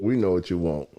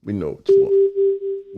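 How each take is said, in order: First: Said in the usual way. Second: Whispered promise. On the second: Shown as a demonstration. Repeated promise, whispered first.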